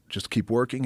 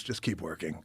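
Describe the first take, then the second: First: Said in the usual way. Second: Low dismissive brush-off. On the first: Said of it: "He goes, "Just keep working". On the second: Retold or imitated. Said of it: "He goes".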